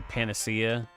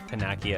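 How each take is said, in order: First: The middle consonant is a soft s sound. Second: The middle consonant is a hard k sound. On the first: "I want to say Panacea" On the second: "I think I pronounced it Panakia as a kid"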